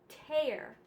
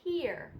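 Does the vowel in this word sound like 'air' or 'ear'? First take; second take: air; ear. First: The vowel sounds like the word 'air'. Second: The vowel sounds like the word 'ear'. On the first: "And in the air, it's tear" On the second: "In the ear, it's tear"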